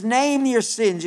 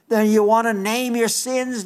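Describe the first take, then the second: First: "name your sins" repeated slower, each word weighted; slow emphatic repeat. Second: Said in the usual way. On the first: Shown as a demonstration. Preacher urging listeners to confess, slow and stressed. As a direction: lean on "name" and stretch the phrase.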